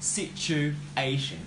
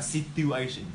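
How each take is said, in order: First: The stress is on the third syllable. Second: The stress is not on the third syllable. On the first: The speaker calls it right. "We put the word stress in the third syllable" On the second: The speaker calls it wrong. "you guys pronounce something like situation"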